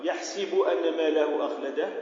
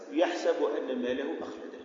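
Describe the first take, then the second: First: First reading, si in يحسب; kasra on the sin. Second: Second reading, sa in يحسب; fatha on the sin. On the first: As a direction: say يحسب as yahsibu, with an i after the s. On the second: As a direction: say يحسب as yahsabu, with an a after the s. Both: Shown as a demonstration. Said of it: "والقراءتان المعروفتان".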